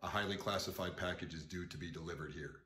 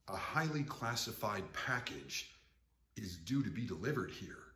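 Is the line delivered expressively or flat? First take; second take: flat; expressive. First: The line is said flat, without expressive inflection. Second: The line is said with a fixed, expressive inflection. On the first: The words are simply being drilled into memory. The speaker calls it right. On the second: The words are memorized along with a set line reading. The speaker calls it wrong.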